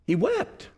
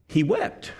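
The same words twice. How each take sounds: First: Higher and much softer, grieving; hushed sorrow. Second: Said in the usual way. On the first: Shown as a demonstration. Pastor echoing that Jesus wept, softly grieving. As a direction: let the words break with sorrow. Preacher tells of Jesus weeping.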